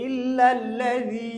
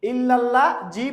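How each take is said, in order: First: ইল্লাল্লাযী slow, ending in a soft 'dh'; tongue between teeth for the last consonant of ইল্লাল্লাযী; soft dhal. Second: ইল্লাল্লাহ জি ending in a hard 'j'; wrong j sound. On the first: Teacher correcting the hard j, softened and drawn out. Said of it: "জাল নরম". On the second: Teacher warning against this reading, mispronounced. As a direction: say জি as a plain Bengali j. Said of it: "পড়া যাবে না". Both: Shown as a demonstration.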